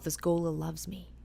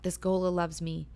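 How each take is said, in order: First: Soft inner whisper; a woman reassuring herself in her head, whispered; whispered thought. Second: Said in the usual way. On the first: Retold or imitated. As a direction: breathe it as a private thought. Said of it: "she thinks to herself". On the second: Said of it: "she's like".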